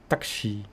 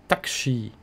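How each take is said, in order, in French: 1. Le u après le k est omis. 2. Le u après le k est omis.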